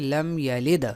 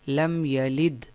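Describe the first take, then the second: First: The final d ends with an echoing bounce. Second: The final d stops flat without a bounce. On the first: The speaker calls it right. "बल्कि लम यलिद" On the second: The speaker calls it wrong. "लम यलिद नहीं"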